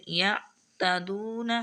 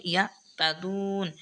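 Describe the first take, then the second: First: ইয়াতাদুনা with a voiced final a after the n; the mistaken ending ইয়াতাদুনা, vowel kept; pausing wrongly on ইয়াতাদুনা. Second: ইয়াতাদুন ending on a silent n; stop on the n. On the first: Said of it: "ইয়াতাদুনা হবে না". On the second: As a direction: cut ইয়াতাদুন off at the n. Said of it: "এখানে হবে ইয়াতাদুন". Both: Shown as a demonstration.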